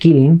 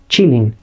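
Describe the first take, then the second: First: The name begins with a hard k sound. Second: The name begins with a ch sound. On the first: The speaker calls it wrong. "yo le decía el Killing porque técnicamente así está escrito" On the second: The speaker calls it right. "la pronunciación correcta del nombre de esta criatura es Chilling"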